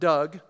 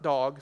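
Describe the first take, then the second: First: The vowel sounds like the one in 'Doug'. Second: The vowel sounds like the one in 'dog'. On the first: "not Doug" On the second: "not dog"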